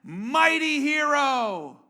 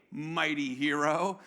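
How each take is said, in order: First: Slow, booming mighty proclamation, higher and louder; angel's greeting. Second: Low, drawn-out mock-admiring address; slow and low, tipping up at the end, half questioning; possibly sarcastic greeting. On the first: Acted. Angel of the Lord greets hiding Gideon, grand slow proclamation. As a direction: hail him grandly, drawing out each word. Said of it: "the angel of the Lord appears to him and says". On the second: Angel hails a man hiding in fear, slow dubious sarcasm. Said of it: "I can't understand the tone here. I don't know if this is sarcasm".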